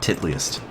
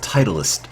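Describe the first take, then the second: First: It begins with 'tit', then '-liest'. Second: It begins with the word 'title', then '-ist'. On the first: The speaker calls it wrong. "not Titliest" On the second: The speaker calls it right. "it's pronounced Titleist"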